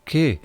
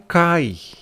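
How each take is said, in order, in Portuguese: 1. É um 'e' simples. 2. É um ditongo 'ai'. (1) "na pronúncia do grego não é kai" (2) "na pronúncia do grego não é kai"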